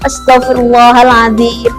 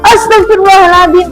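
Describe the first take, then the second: First: It is said aloud but calmly. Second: It is shouted very loudly.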